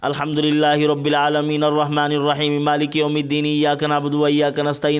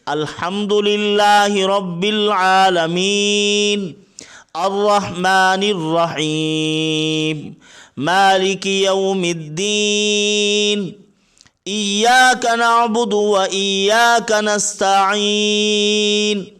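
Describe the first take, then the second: First: The verses run together in one breath. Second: Each verse is separated by a pause.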